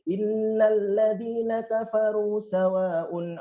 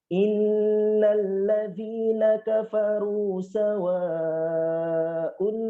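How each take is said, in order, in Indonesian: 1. Vokal dalam sawaun pendek seperti kafaru. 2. Vokal dalam sawaun dibaca panjang. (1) "tidak boleh ... Kan enggak ada bedanya kafaru dengan sawaun" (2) "satunya mat wajib muttasil. Maka harus pelan-pelan"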